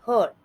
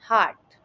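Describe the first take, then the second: First: The vowel is a short 'er' sound. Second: The vowel is a long 'ah' sound. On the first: The speaker calls it wrong. "इस शब्द का गलत उच्चारण कुछ इस तरीके से किया जाता है" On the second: The speaker calls it right. "इसका सही उच्चारण इस तरीके से है"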